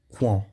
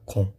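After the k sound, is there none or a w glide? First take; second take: w glide; none. First: The u is sounded as a w after k. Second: The u is silent after the k. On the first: The speaker calls it wrong. "Você não vai pronunciar a letra U igual no italiano, não. Vocês não vão falar com" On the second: The speaker calls it right. "Não, vocês vão falar com"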